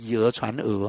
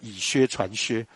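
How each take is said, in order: First: The repeated character is pronounced é. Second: The repeated character is pronounced xiāo. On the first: The speaker calls it right. "那个要绝对要念以讹传讹啊" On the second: The speaker calls it wrong. "把讹念成削了"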